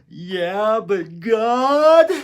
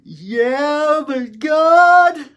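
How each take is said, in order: First: Higher and louder, a desperate cry; despairing plea. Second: Much higher and louder, a strained desperate wail; despairing cry. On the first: Prisoner pleading with Jesus, higher and louder in despair. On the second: Prisoner crying out to Jesus, high and louder in anguish. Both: Retold or imitated. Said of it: "in my despair".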